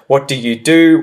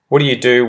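First: Each word is said separately and fully enunciated. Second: The words run together in a quick, reduced form. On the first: "if I was to really enunciate" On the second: "See how easy that is for me to say?"

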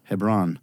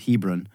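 First: The stress is on the second syllable. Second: The stress is on the first syllable. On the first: "the accents always tend to be on the second or third syllable. So he says Hebron" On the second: "there was an emphasis on the first. So I always said Hebron"

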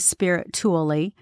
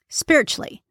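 First: Every syllable is pronounced as it is spelled. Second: The word is said the casual everyday way. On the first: The speaker calls it wrong. "we don't say spiritually" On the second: The speaker calls it right. "We say spiritually"

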